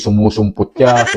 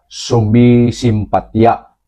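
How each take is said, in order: First: The word is said with 'u' vowels: sumusumputya. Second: The word is said with 'i' vowels: sumisimpatya. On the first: The speaker calls it wrong. "Hindi sumusumputya" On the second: The speaker calls it right. "ang tamang bigkas ay sumisimpatya"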